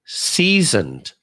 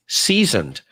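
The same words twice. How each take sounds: First: Lightly voiced villain, "seasoned" drawn out slowly with a falling end; a hint of a movie villain savoring "seasoned"; Doctor Evil. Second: Said in the usual way. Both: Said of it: "Doctor Evil".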